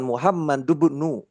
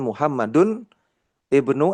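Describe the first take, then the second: First: The final n runs straight into bnu. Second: Ibnu starts with its own vowel, said separately. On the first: The speaker calls it right. "Tapi harus diwasol... Jadi harus dilangsungkan" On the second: The speaker calls it wrong. "Jadi bukan Muhammadun ibnu Abbasin, bukan"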